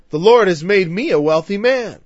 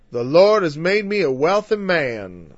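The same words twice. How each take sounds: First: A fuller mock Southern preacher accent, a bit louder; retry the Southern preacher impression with more punch. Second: A light mock Southern preacher accent. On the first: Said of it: "Someday I'm gonna get that out". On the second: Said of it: "Sorry, the South".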